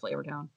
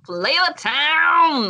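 First: It is said flatly, without any excitement. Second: It is said with lively, excited energy. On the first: The speaker is tired of naming the town. "And then after a while I'd be like" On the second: The speaker is thrilled to name the town. "Like I'd be so excited"

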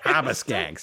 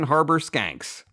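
First: It is said in a Boston accent, r dropped. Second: It is said in a plain, non-Boston accent. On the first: The speaker calls it right. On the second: The speaker calls it wrong.

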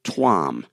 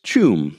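First: The name begins with a t sound. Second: The name begins with a ch sound. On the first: "I pronounced it Tuam" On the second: "the article says it's pronounced Chum"

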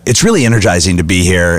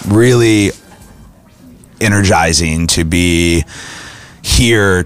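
First: It is said in a lively, energized way. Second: It is said in a flat, low-energy way.

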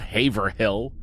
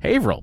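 First: The name is said a non-local way. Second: The name is said the local way. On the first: The speaker calls it wrong. "It's not Haverhill" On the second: The speaker calls it right. "That's how you pronounce Haverhill"

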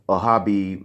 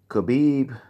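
First: The name starts with an H sound. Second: The name starts with a hard K sound. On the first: The speaker calls it wrong. "I've been hearing a lot of people say Habib" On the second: The speaker calls it right. "We pronounce our K's"

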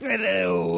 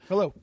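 First: It is said in a put-on character voice. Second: It is said in his own normal voice.

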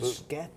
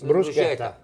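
First: The 'ch' is said as a hard K. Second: The 'ch' is said as a soft sound. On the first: The speaker calls it right. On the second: The speaker calls it wrong.

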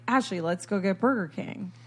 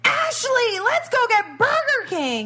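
First: It is said at normal volume. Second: It is shouted loudly.

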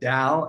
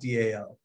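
First: It is said as one word rhyming with Tao. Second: It is said as three separate letters. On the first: The speaker calls it right. "I really liked DAO because I'm a big fan of Lao Tzu's Tao Te Ching" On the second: The speaker calls it wrong. "not DAO"

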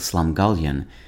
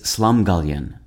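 First: The stress is on the second syllable. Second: The stress is on the first syllable.

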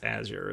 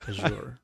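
First: The word is pronounced the English way. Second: The word is pronounced the French way. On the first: The speaker calls it right. "But I think it's Azure" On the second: The speaker calls it wrong. "I think that one of us used a French pronunciation"

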